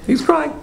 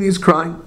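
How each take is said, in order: First: Very high, astonished echo; incredulous repeat. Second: Said in the usual way. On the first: Retold or imitated. Teacher retells Plato finding the prophet in tears, incredulous. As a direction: repeat it in high-pitched disbelief.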